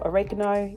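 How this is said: It is said the American way.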